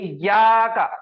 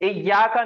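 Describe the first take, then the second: First: The vowel sound is drawn out long. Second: The vowel sound is said short. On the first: The speaker calls it right. "खींच के पढ़ना है" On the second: The speaker calls it wrong. "इया का नहीं"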